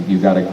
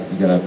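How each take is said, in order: Both takes have the same delivery.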